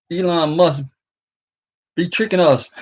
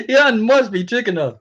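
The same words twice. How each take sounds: First: Said in the usual way. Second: Laughing through the words, pitch raised; amused disbelief, chuckling it out. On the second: Real, not acted. Telling viewers about Elon Musk, laughing.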